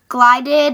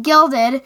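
First: "glided" with a long i, GLY-did; misreading, GLY-did for "glided"; misread word. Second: "gilded" with a short i, GIL-did; corrected reading, GIL-did for "gilded"; corrected word. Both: Real, not acted.

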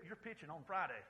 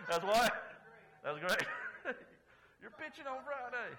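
First: Said in the usual way. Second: Louder, laughing through the words. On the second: Real, not acted. Pastor laughing at his own punchline for the congregation, loud laughing. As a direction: crack up at your own joke.

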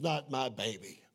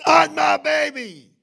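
First: Said in the usual way. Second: High, loud, drawn-out plea to God; retold plea at a shout; desperate cry. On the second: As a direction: cry it out slowly at full force. Retold desperate plea, repeated louder.

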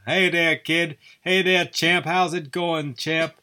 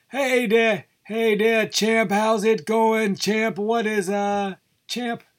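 First: A lightly voiced sportscaster, somewhat higher; a first, tentative try at the old boxing announcer; Howard Cosell impression. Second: Much higher, hammed-up old boxing announcer; bad Howard Cosell. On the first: Host trying out his Cosell voice for listeners, lightly higher. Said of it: "talking like that other one who was best pals with Muhammad Ali". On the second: Host retrying the impression for the podcast, much higher and hammed-up. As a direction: push the voice way up and ham up the ringside sportscaster. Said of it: "bad Howard Cosell impression".

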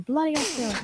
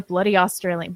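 First: Higher, softer stab at Australian; badly faked Aussie accent, tossed off quietly. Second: Said in the usual way. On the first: Co-host trying out a viewer's nationality, bad Australian accent. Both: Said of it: "I can't do an Australian accent".

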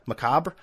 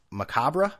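First: Macabre ending on the b, rising; alternative pronunciation. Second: Macabre with a sounded -ruh, rising; questioning pronunciation. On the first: Host tries another version, macabre as muh-KAHB. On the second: Host tries the word out, macabre as muh-KAH-bruh. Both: Shown as a demonstration. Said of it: "how do you pronounce that word?".

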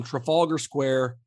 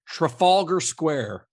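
First: Said in the usual way. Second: Trafalgar Square, slow and carefully sounded out; "Trafalgar" drawn out and higher, then "Square"; careful pronunciation. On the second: Shown as a demonstration. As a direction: say "Trafalgar Square" slowly, taking care over every syllable. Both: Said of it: "make sure I'm saying this right".

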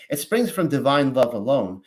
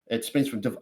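First: Said in the usual way. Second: Flat monotone robot read. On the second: Real, not acted. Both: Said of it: "I sounded like a robot there".

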